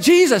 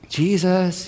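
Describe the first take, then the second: First: It is said loudly, like a yell. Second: It is said softly and gently.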